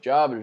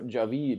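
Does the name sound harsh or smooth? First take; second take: harsh; smooth. First: The name is said harshly, not smoothly. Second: The name is said smoothly and flowingly. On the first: The speaker calls it right. "just sounds like clinking pans together" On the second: The speaker calls it wrong. "as opposed like to Javid, it flows"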